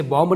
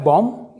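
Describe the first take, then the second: First: बॉम्ब said "bomb" with an audible final B; B sounded. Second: बॉम्ब said "bom", ending on M; silent B. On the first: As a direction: voice the B after M in बॉम्ब. (बॉम्ब के आख़िर में ब की आवाज़) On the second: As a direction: say बॉम्ब with no B sound at the end. (बॉम्ब को "बॉम" बोलें, ब silent) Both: Shown as a demonstration. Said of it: "इसे बॉम्ब नहीं पढ़ेंगे".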